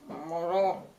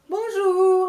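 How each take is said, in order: First: It is said flatly, without warmth. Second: It is said warmly and cheerfully.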